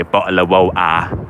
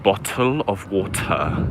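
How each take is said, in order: First: "Bottle of water" with the t's dropped, "bo'le of wa'er"; glottal London bottle of water. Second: "Bottle of water" slow and soft, each t spelled out; slow careful bottle of water. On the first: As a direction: drop the t's in "Bottle of water", Cockney style. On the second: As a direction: teach "Bottle of water" slowly, t's crisp. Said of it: "Learn it". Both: Shown as a demonstration.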